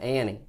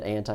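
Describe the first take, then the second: First: The word is said in a Texan way. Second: The word is said in a standard way. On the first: The listener understood it. "then I realized he was from Texas, and I said" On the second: The listener did not understand it. "I said anti, and he goes, "What?""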